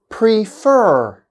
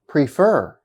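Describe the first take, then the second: First: "prefer" slowly, second syllable high and held; stressed second syllable. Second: Said in the usual way. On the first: Shown as a demonstration. Teacher giving a verb example, slow second-syllable stress. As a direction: stretch the last syllable of "prefer". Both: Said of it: "on the second syllable".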